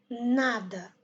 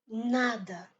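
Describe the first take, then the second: Both takes have the same delivery.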